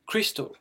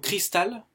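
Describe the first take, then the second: First: Crystal said English-style, ending in a dark "ol"; English pronunciation. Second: Said in the usual way. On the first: Shown as a demonstration. Teacher gives learners the English word, English pronunciation of crystal. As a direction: say crystal as "kris-tol", higher pitch. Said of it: "Donc le cristal". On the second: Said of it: "On va commencer par le cristal".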